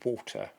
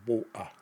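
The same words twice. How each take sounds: First: The middle T is clearly pronounced. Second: The middle T is a glottal stop. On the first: "pronounce medial and terminal T's" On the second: "replacing them with glottal stops"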